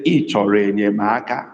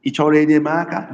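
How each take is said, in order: First: "Ị chọrọ enyemaka" sinking to low tones; low-tone "Ị chọrọ enyemaka" statement. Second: Quick "Ị chọrọ enyemaka" on high tones; fast high-tone "Ị chọrọ enyemaka"; high tone question. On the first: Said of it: "Low tone". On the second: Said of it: "a question with high, high tone". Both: Shown as a demonstration.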